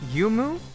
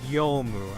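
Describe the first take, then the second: First: The first vowel sounds like 'oo'. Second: The first vowel sounds like 'oh'. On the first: The speaker calls it wrong. "I pronounce your name as Yumu" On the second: The speaker calls it right. "but it's Yomu"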